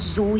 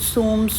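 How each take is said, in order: First: The word is said as a plain 'zoo'. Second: The word is said as 'soom', with an m ending. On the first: "instead of saying zoo" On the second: "he was saying soom"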